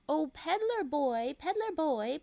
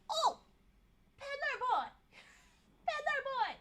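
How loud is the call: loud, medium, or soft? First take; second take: medium; loud. First: It is said a little louder than normal. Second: It is said very loudly, almost shouted. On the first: "this time a little louder voice" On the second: "in his loudest voice"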